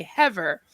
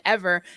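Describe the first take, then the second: First: "Hever" with a breath of H before ever; imitated misplaced H on "Hever"; added H. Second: Said in the usual way. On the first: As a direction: put an H in front of ever, "Hever". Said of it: "she wouldn't say the H until". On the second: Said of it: "she wasn't supposed to say it".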